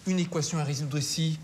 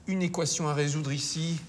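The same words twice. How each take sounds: The two takes are said the same way.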